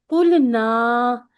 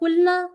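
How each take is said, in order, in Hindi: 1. अंतिम स्वर को लंबा किया जाता है। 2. अंतिम स्वर को छोटा रखा जाता है।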